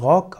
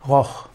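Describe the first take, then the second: First: The word ends with a hard k sound. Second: The word ends with a throaty ch sound. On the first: "Er kann ausgesprochen werden als Rock" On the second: "oder eben auch als Rock, Roch"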